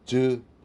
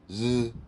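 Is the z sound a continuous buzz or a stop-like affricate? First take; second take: affricate; continuous buzz. First: A short z where the tongue touches then releases. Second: A long continuous buzzing z without tongue contact. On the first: The speaker calls it wrong. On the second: The speaker calls it right.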